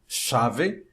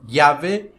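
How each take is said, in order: First: The ll has the Uruguayan and Argentine sound. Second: The ll sounds like Portuguese lh. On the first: "como se fosse na, no Uruguai e na Argentina" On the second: "como se fosse um L H"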